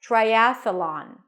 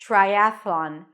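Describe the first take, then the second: First: A short uh sound sits between th and l. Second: The th runs straight into the l. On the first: "you add a schwa between, a small uh sound" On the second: "Same transition"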